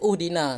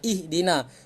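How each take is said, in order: First: The word begins with a u vowel. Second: The word begins with an i vowel. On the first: The speaker calls it wrong. "Kenapa tidak dibaca uhdina?" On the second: The speaker calls it right. "dibaca sebagai baris bawah"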